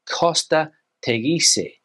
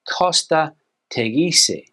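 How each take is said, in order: First: It is said with a Spanish pronunciation. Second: The same.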